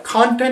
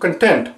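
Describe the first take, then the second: First: The first vowel is full, as in pot. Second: The first vowel is weak and reduced. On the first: It is the noun. "This sound is same as the sound that you see in pot" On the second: It is a different word. "Now instead of con is con"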